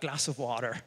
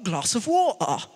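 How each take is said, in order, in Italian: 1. Si dice con accento americano. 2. Si dice con accento britannico. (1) "naturalmente col suo accento americano" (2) "il moderatore londinese doc"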